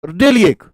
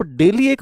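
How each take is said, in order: First: daily punched louder with a falling tune; stress on daily. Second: Said in the usual way. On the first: Shown as a demonstration. Teacher drilling daily into students, stressed. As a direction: hit the word daily hard.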